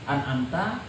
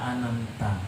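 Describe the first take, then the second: First: The middle letter is said fully. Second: The middle letter is dropped. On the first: The speaker calls it right. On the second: The speaker calls it wrong.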